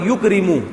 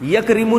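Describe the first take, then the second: First: The first syllable has a 'u' vowel. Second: The first syllable has an 'a' vowel. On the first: The speaker calls it right. "इकराम से" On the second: The speaker calls it wrong. "नहीं होगा"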